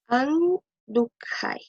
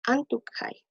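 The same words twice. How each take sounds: First: Andukhai drawn out syllable by syllable, very slow; slow model pronunciation. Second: Said in the usual way. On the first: Shown as a demonstration. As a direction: stretch out Andukhai slowly, like a teacher showing the class. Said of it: "teacher models the future form". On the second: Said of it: "repeated at normal speed".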